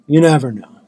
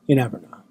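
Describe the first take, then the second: First: Says it again louder, for emphasis; louder repeat. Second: Said in the usual way. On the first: Shown as a demonstration.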